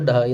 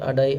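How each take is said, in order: First: The word begins with a d consonant. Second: The word begins with a vowel sound. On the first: This is how the word is written. "ഇവിടെ എഴുതുമ്പോൾ ഡഹായി എന്നായിരിക്കും" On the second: This is how people say it in speech. "നമ്മൾ ഉച്ചരിക്കുമ്പോൾ അടായി"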